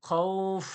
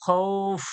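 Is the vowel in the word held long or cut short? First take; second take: long; long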